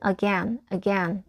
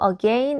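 First: It is said with an American pronunciation. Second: It is said with a British pronunciation. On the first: "미국식은 again 이음절 강세해 두시고" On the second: "again은 약간 영국식 발음이고요"

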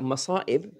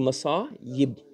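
First: The middle consonant is a glottal stop. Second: The middle consonant is a y sound. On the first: The speaker calls it wrong. "masa'ib actually is incorrect" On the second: The speaker calls it right. "It's supposed to be masa'ib"

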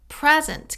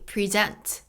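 First: The stress is on the first syllable. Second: The stress is on the second syllable. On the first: It is a noun or adjective. "명사나 형용사일 때는 present, 이렇게 앞에 악센트가 가요" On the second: It is a verb meaning to show. "동사일 때는 발음이 present"

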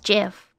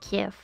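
First: The word begins with a soft J sound. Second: The word begins with a hard G sound. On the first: This is the official pronunciation. "the official is GIF" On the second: This is the speaker's habitual pronunciation. "It's basically like a gift without the T"

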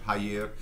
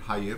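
First: The word starts with no h sound. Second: The word starts with an audible h sound. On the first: This is the international French pronunciation. "international French" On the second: This is the Louisiana French pronunciation. "the pronunciation haïr, which is different from international French"

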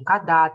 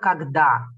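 First: The middle sounds are dropped, said clipped. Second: Every sound is pronounced, said in full. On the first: The speech sounds cheap and careless. The speaker calls it wrong. "это очень дешевая речь" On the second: The speech sounds careful and valuable. The speaker calls it right. "Мы должны хорошо проговаривать"

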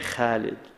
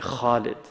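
First: The first consonant is light and thin. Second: The first consonant is heavy and full. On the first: This is how speakers of modern Arabic say it. The speaker calls it wrong. "don't say Khalid like the modern Arabs say" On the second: The letter is one of the heavy letters. The speaker calls it right. "Say Khalid, because that's haruf mufakhama"

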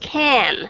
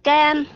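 First: The initial k has a strong puff of air. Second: The initial k has no puff of air. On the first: The speaker calls it right. "đọc cho nó chuẩn đi" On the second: The speaker calls it wrong. "trước tới bây giờ các bạn đọc là can thì các bạn hãy cố gắng sửa lại cái aspiration"

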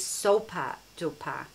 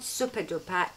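First: The first word sounds like 'soap' plus 'er'. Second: The first word sounds like 'super'. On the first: The speaker calls it right. "Soaper as in soap that you wash your hands with" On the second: The speaker calls it wrong. "it's not Super Duper"

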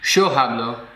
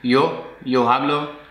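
First: The y in yo sounds like a sh sound. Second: The y in yo sounds like a ye sound. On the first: This is how speakers in Argentina say it. "an Argentinian would go" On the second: This is how speakers in Spain say it. "Spaniard or another Spanish speaker would say"

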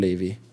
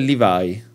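First: The name is said the biblical way. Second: The name is said the anime way. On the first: This is the pronunciation used for the biblical figure. The speaker calls it wrong. "non Levi" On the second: This is the pronunciation used for the anime character. The speaker calls it right. "Si pronuncia Levi"

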